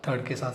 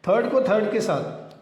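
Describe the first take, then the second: First: Softer, lower repeat; dropped-down drill echo. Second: Said in the usual way. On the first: Shown as a demonstration. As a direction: echo third के साथ quietly.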